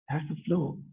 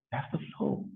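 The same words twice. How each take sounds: First: Quiet. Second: Whisper. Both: Shown as a demonstration.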